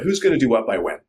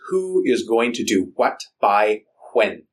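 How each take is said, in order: First: The words run together in relaxed, casual speech. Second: Each word is spoken with exaggerated, deliberate enunciation.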